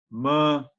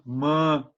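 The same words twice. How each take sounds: Both takes have the same delivery.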